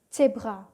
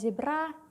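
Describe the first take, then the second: First: The word starts with a ts sound. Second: The word starts with a plain z sound. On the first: The speaker calls it right. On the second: The speaker calls it wrong. "Dibacanya bukan"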